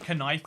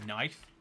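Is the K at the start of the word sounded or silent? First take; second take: sounded; silent. First: The K at the start is sounded. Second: The K at the start is silent. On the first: This is how the word used to be pronounced. "because knife is so awkward to pronounce" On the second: This is how the word is pronounced now. "people just start saying knife"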